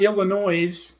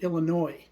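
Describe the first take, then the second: First: The word ends with an audible S sound. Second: The word ends without any S sound. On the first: The speaker calls it wrong. "not Illinois with an S on the end" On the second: The speaker calls it right. "You don't pronounce the S"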